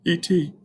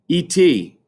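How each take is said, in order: First: It is said in a strange voice. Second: It is said in a normal voice.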